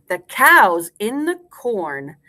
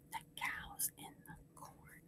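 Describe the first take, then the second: First: Slow, full-voiced nursery rhyme line; slow rhyme recitation. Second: Barely audible whisper; whispered echo. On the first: Teacher gives class a line to repeat, slow and clear. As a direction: space it out for repeating. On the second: Teacher leaves room for class to repeat, whispering faintly. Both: Shown as a demonstration.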